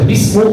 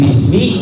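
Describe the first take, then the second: First: The word ends with a u vowel. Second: The word ends with an i vowel. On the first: The speaker calls it wrong. "tidak boleh dibaca bismu" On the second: The speaker calls it right. "Jadi bismi tidak boleh dibaca"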